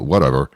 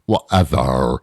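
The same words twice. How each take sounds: First: It is said plainly, without a put-on accent. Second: It is said in an exaggerated Valley Girl accent. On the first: The speaker calls it wrong. "You can't just go, whatever. That's not enough" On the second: The speaker calls it right. "You need to do it with the accent"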